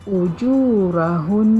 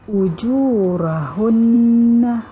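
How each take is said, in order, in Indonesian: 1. Kata ini berakhir dengan sengau yang ditahan dua ketukan. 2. Kata ini berakhir dengan vokal penuh setelah nun.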